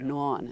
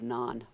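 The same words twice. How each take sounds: First: It is said with a Pittsburgh accent. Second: It is said with a standard accent.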